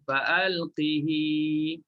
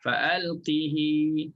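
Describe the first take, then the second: First: The word ends with a lengthened i vowel. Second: The word ends with a lengthened i vowel.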